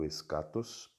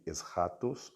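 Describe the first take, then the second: First: The middle consonant is a hard k sound. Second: The middle consonant is a breathy, h-like sound. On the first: "Você pode pronunciar também escatos" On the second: "alguns pronunciam aqui como escatos ou eschatos"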